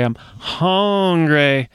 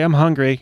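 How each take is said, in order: First: Hungry is said intensely as hongry. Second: Hungry is said plainly with the usual vowel. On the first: The hunger is urgent and serious. The speaker calls it right. "they might call the police or give you food immediately" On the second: The hunger can wait a while. The speaker calls it wrong. "yeah, that's fine. We'll get to you in a second, sir"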